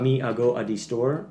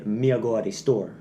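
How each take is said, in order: First: "Me, I go a the store" with the wrong rhythm, a break after "Me"; wrong patois rhythm. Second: Patois rhythm on "Me a go a the store", short "a" linking each word; Jamaican patois sentence. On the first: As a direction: stumble through "Me, I go a the store" off the beat. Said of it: "you're not in the proper rhythm". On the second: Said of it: "In patois, you say". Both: Shown as a demonstration.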